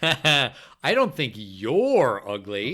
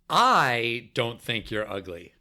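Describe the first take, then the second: First: The word "you're" carries the emphasis. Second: The word "I" carries the emphasis. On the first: "so who's ugly?" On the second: "First, the first word"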